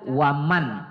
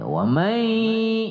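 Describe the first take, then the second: First: The n is pronounced clearly and briefly. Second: The n becomes a lengthened nasal hum into y. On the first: The speaker calls it wrong. "jadi tidak kita baca waman" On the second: The speaker calls it right. "berdengung dia ... kita lamakan sedikit membacanya"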